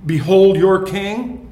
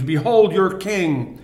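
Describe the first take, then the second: First: Loud, slow, proclaimed with a rise on "Behold"; mocking proclamation. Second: Said in the usual way. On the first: Preacher proclaims Pilate's mocking verdict to the crowd, loud and slow. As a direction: announce "Behold your king" slowly and loudly, as Pilate's mockery. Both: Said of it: "three mocking verdicts by Pilate".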